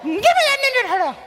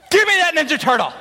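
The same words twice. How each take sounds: First: Put-on very high whiny child voice; whiny kid. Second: Put-on higher, louder demanding child; demanding kid. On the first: Boy demanding the toy, high whiny version. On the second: Boy demanding the toy from brother, childish demand. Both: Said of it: "Except it was more like".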